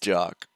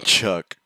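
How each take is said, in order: First: The name starts with a j sound. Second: The name starts with a ch sound. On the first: The speaker calls it right. "It's Jock" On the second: The speaker calls it wrong. "It's not Chuck"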